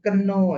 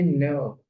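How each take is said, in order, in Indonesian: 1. Kata ini dimulai dengan K yang dibunyikan. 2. Kata ini dimulai dengan K yang diam. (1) "itu bacanya bukan keno ya" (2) "tapi know"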